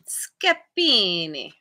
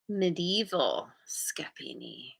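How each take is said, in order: First: Slow, drawn-out Italian accent on Scapini, stretched in a hammed-up way; terrible Italian accent. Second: Said in the usual way. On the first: Shown as a demonstration. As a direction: say Scapini like a bad Italian impression. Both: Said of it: "I always wanna say it with my terrible Italian accent".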